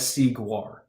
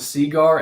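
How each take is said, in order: First: The second part sounds like 'gwar'. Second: The second part sounds like 'gar'.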